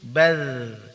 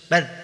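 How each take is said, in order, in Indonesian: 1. Bunyi akhir mengalir terus dan dipanjangkan. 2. Bunyi akhir dipotong tiba-tiba.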